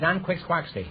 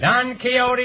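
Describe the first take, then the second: First: Quixote is said with a literal anglicized pronunciation. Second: Quixote is said with the Spanish-style pronunciation.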